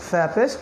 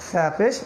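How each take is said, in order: The two takes are said the same way.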